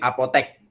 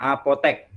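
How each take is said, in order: First: The last vowel is an e sound. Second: The last vowel is an e sound.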